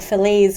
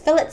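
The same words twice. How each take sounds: First: It is said with an American pronunciation. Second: It is said with a Scottish pronunciation. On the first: "in the U S of A you guys call it fillets" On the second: "being born in Glasgow, Scotland, I pronounce them as fillets"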